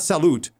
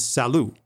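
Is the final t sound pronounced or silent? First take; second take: pronounced; silent. First: The final t sound is pronounced. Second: The final t sound is silent. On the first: The speaker calls it wrong. "It's not salut" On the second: The speaker calls it right. "the last letter of a word is not pronounced"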